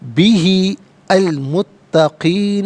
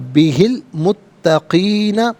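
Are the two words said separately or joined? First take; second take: separately; joined. First: The two words are said separately. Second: The two words are joined together. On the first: "अलहदा पढ़ेंगे" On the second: "अगर मिलाकर पढ़ेंगे"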